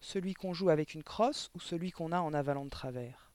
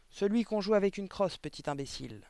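First: Put-on even, unhurried boy asking for clarification; calm question. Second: High, loud answer dropping onto the insult; irritated retort. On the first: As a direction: ask it calmly, without provocation. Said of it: "demanda calmement Victor". (question posée calmement) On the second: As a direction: snap back at the boy impatiently. Directrice répond, agacée, en insultant. (réplique agacée et méprisante) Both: A narrator's reading.

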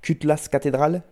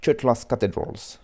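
First: Higher-pitched, fully French pronunciation; French accent. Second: Slow, attempted American accent; American English accent. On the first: Radio host showing it sounds ridiculous too, in a French accent. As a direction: say the English title as French words. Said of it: "aussi ridicule avec l'accent français". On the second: Radio host trying the English title, self-consciously, in an American accent. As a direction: say it slowly with a put-on American accent. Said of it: "si je vais le dire avec l'accent". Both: Shown as a demonstration.

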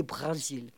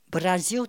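First: BRÉSIL with throaty R and clear final L; foreigners' pronunciation. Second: BRASIL with tapped R, ending like "ziu"; native Brazilian BRASIL. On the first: Retold or imitated. Imitating the writer saying it like foreigners, BRÉSIL with throaty R. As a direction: say BRÉSIL as "Bra-zil", guttural R. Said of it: "comme disent tous les étrangers". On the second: Shown as a demonstration. Showing how it should be, BRASIL as native "Braziu". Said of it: "Or que ça devait être".

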